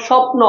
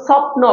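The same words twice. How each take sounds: First: স্বপ্ন said "shopno"; palatal sh. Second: স্বপ্ন said "sopno", starting with English S; dental s, wrong way. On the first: Teacher showing what you must say, palatal sh. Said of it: "তোমাকে বলতে হবে". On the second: Teacher showing what you can't say, dental s. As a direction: hiss a plain s to open স্বপ্ন. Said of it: "তুমি বলতে পারবে না যে". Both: Shown as a demonstration.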